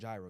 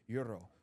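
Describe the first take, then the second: First: The word begins with a hard g sound. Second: The word begins with a y sound. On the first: The speaker said it this way where he comes from. The speaker calls it right. "no, gy- it's a gyro" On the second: Other people said it this way. The speaker calls it wrong. "It'd be like euro"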